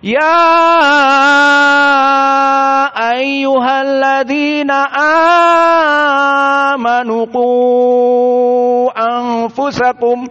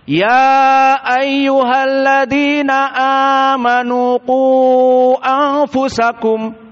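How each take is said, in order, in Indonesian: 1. Ini dibaca dengan riwayat Warsh. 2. Ini dibaca dengan riwayat Hafs. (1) "qiraahnya Wars" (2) "qiraah hafaz an Asim yang antum hafal"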